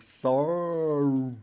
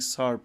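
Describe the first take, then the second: First: The name is said big and drawn out, exaggerated. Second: The name is said plainly, with normal mouth movement. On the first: "if I wanted to exaggerate, I'd be like Sarp" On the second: "instead of saying Sarp"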